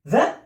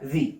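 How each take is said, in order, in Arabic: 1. الحركة صوت 'uh' قصير. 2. الحركة صوت 'ee' طويل. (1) "the لو اللي قبلها حرف ساكن" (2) "لو الكلمة اللي قبلها فيها حرف فاول بقول the the the"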